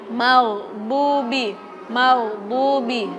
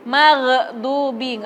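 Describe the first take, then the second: First: Maghdubi slowly with a smooth, unbounced d; right reading. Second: Maghdubi said slowly with a bouncing d; wrong reading. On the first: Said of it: "Nggak boleh baca maghdubi". (bacaan maghdubi yang benar, d tidak memantul) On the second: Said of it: "cara bacanya nggak boleh". (bacaan maghdubi yang salah, d memantul) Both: Shown as a demonstration.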